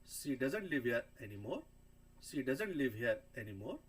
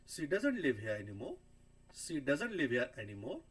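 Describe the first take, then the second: Both takes have the same delivery.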